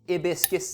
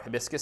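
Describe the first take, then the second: First: The opening H is pronounced softly. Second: The opening H is pronounced strongly. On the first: "should I be putting less emphasis on the H?" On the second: "Am I overemphasizing the H?"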